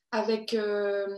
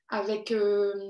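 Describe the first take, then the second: No difference in how they are said.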